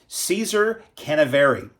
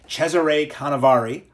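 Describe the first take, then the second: First: The first name is said like English Caesar. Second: The first name is said with Italian sounds. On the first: The speaker calls it wrong. "I'll pronounce it incorrectly" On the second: The speaker calls it right. "I'll pronounce it, I think, correctly"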